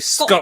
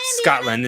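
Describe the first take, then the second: First: The T sound is dropped. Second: The T sound is clearly pronounced. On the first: "you don't pronounce the T" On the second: "People who from who are from Scotland don't pronounce it Scotland"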